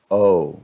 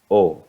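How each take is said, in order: First: The vowel glides toward a rounder sound. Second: The vowel stays steady without any glide. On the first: "cuando digo el nombre de esta vocal en inglés, se pueden ver que hay movimiento" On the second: "Cuando yo digo O en español, está completamente estable mi boca"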